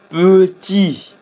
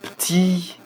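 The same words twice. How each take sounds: First: The mute e is clearly pronounced. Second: The mute e is dropped completely. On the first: "c'est le E" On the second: "on a laissé carrément le E muet"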